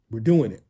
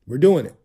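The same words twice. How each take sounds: First: Said in the usual way. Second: Same words again, pushed louder; louder hype repeat. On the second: Shown as a demonstration. Host pumps up viewers with a louder repeat. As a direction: punch it out a second time, louder. Hyping up his happy mood.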